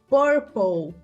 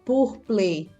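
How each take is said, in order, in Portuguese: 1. Ela é pronunciada como um falante nativo de inglês. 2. Ela é pronunciada como se fosse lida em português. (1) "e purple" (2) "e não purple"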